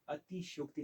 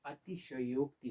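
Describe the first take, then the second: First: अतिशयोक्ति squeezed to "ati-shyokti"; अतिशयोक्ति said with "shyo" as one syllable; wrong pronunciation. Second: अतिशयोक्ति sounded out as "ati-sha-yokti"; अतिशयोक्ति with a clear vowel between "sh" and "y"; correct pronunciation. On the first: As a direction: drop the vowel after "sh" in अतिशयोक्ति. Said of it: "अतिशयोक्ति नहीं होता है". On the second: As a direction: give "sha" its own syllable in अतिशयोक्ति. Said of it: "अतिशयोक्ति होता है". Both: Shown as a demonstration.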